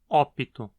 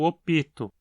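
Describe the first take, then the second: First: The stress is on the first syllable. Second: The stress is on the second syllable. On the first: The inserted vowel does not count as a syllable. "o acento cai no o" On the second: The inserted vowel counts as a real syllable. "o acento foi deslocado para cima da vogal epentética"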